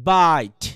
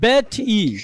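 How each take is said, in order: First: A gliding diphthong vowel with no final vowel. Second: A short plain vowel, then a final e sound. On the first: The speaker calls it right. "ডিপথং হলে কেমন হবে?" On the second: The speaker calls it wrong. "এমন উচ্চারণ হওয়া উচিত না?"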